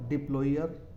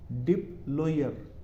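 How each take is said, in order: First: Said in the usual way. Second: डिप्लॉयर drawn out slowly, di-ploi-yer; slow model word. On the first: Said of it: "अगला word हो जाएगा". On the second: Shown as a demonstration. Teacher slowly pronouncing डिप्लॉयर for the class. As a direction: stretch डिप्लॉयर, oi glide clear. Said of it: "अगला word हो जाएगा डिप्लॉयर".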